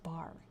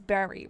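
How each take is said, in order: First: The name is said with one syllable. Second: The name is said with two syllables. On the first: The speaker calls it wrong. "I thought it was Bar. I was corrected" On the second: The speaker calls it right. "it's Barry, right?"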